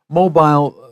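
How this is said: The word is said with a British pronunciation. "is more English, British English"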